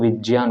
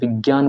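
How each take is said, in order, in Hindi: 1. बीच के संयुक्त अक्षर को 'jya' की तरह बोला जाता है। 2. बीच के संयुक्त अक्षर को 'gya' की तरह बोला जाता है। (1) "वो ज्य होता है" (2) "विज्ञान बोलते हैं लोग बाग"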